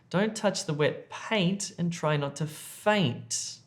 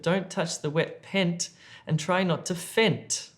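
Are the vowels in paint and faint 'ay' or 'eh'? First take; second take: ay; eh. First: Paint and faint have a long ay vowel. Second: Paint and faint have a short eh vowel. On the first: The speaker calls it right. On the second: The speaker calls it wrong.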